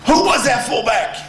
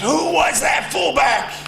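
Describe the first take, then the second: First: High, loud coach shout; Bo impersonation. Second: High shouting coach voice, slow and loud; Bo impersonation. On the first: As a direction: yell it again as the angry coach. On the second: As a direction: bark it like an old furious coach. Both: Retold or imitated. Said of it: "That's my best Bo impersonation".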